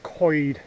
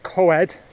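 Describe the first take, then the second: First: The word sounds like 'coyd'. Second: The word is read the way it is spelled. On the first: The speaker calls it right. "it's pronounced coed, as if you're saying C O Y D" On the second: The speaker calls it wrong. "It looks like coed"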